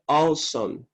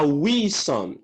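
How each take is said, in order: First: Awesome said as aw-sum, W silent; correct pronunciation. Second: "wisdom" with a sounded W, the common error; wrong pronunciation. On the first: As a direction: give the right "awesome", W silent. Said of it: "A pronúncia correta é". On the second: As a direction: mimic the learners' mistaken "wisdom". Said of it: "Muita gente pronuncia a". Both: Shown as a demonstration.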